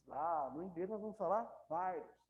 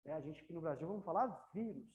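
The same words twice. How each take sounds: First: Virus op z'n Engels, "VAIrus"; English virus. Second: Vírus met Portugese klemtoon, "VIroes"; vírus zoals in Brazilië; Portuguese vírus. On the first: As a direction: zeg virus als een Engelsman. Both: Shown as a demonstration. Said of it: "Muda só a pronúncia".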